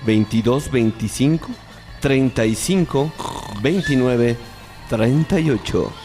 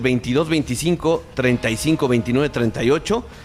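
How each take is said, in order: First: The number is read slowly and deliberately. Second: The number is read at a normal, quicker pace. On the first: The speaker calls it right. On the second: The speaker calls it wrong.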